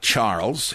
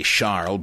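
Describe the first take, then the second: First: "Charles" with ch and final z sound; English pronunciation. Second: "Charles" as SHARL; French pronunciation. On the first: Reading the name as it looks, English "Charles". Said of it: "it looks like Charles". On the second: Correcting for a Frenchman's name, "Charles" as SHARL. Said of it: "He's a Frenchman". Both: Shown as a demonstration.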